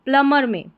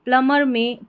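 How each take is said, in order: Both takes have the same delivery.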